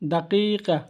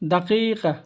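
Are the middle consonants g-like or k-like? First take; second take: k-like; k-like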